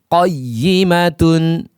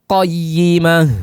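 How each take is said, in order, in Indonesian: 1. Kata ini berakhir dengan akhiran tun penuh. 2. Kata ini berakhir dengan bunyi h yang terhenti.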